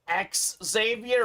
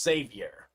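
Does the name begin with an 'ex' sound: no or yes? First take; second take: yes; no. First: The name begins with a clear 'ex' sound. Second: The name begins without an 'ex' sound. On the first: "is that X Xavier" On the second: "or just Xavier?"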